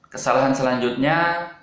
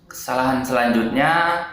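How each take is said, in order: No difference in how they are said.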